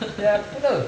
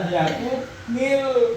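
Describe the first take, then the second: First: The n is joined straight on, with no vowel. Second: An i vowel links n to the next word. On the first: Two silent consonants meet. The speaker calls it wrong. "Gak bisa" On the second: A vowel is added to avoid two silent consonants. The speaker calls it right. "Jadinya lam yakun nil"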